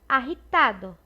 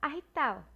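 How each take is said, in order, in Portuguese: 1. O D é pronunciado claramente. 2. O D quase não é pronunciado. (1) "se tu tá aprendendo, provavelmente tu vai dizer" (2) "As pessoas que falam espanhol costumam comer esse D"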